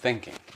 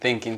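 First: It is said with a German accent. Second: It is said with a standard English accent.

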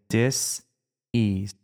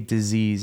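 First: The word is split into two separate parts. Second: The word is said as one smooth unit. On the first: The body is not at ease. The speaker calls it right. "We hyphenate that word. We say dis-ease" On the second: It names an illness. The speaker calls it wrong. "never say disease as one word"

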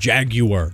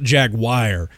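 First: The word is said with a British pronunciation. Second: The word is said with a non-British pronunciation. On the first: "I said Jaguar, like the British say" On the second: "not Jaguar"

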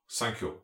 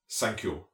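First: It is said in a German accent. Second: It is said in a German accent.

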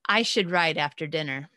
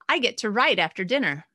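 First: The tone sounds reluctant and dutiful. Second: The tone sounds upbeat and eager.

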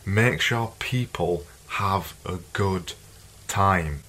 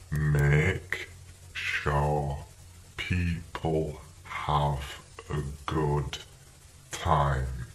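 First: It is said at a faster pace. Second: It is said at a slower pace.

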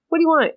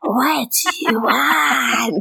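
First: It is said in a normal voice. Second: It is said in a creepy golem-like voice.

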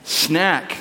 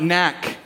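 First: The opening s sound is pronounced. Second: The opening s sound is dropped. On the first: The speaker calls it right. "Do you know what that means?" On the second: The speaker calls it wrong. "he'll often be seen saying"

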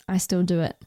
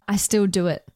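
Both takes have the same delivery.

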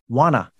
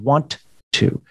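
First: The two words are blended into one. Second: The two words are said separately.

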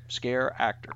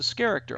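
First: It is said as two separate words. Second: It is blended into one word like character. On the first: The speaker calls it wrong. "It's two words, scare actor" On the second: The speaker calls it right. "a playoff of the word character ... that's the better pronunciation"

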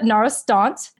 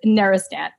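First: The name is said with a French pronunciation. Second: The name is said with an American pronunciation. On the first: "if you're French" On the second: "if you're American, it's Nerestant"

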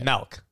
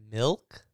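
First: The vowel sounds like 'eh', as in melk. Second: The vowel sounds like 'ih', as in milk. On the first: The speaker calls it wrong. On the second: The speaker calls it right. "There you go"

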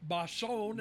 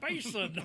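First: The surname is given a French-sounding pronunciation. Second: The surname is given a plain English pronunciation. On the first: The speaker calls it wrong. "it's not Basson / You're making him a Frenchman or something" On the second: The speaker calls it right. "it's Basin"

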